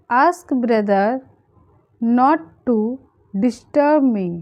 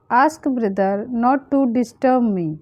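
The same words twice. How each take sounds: First: Pauses after "brother" and "not to"; feed it to learners in short chunks; phrase by phrase. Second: Said in the usual way. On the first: Shown as a demonstration. Teacher translating a request for learners, phrase by phrase.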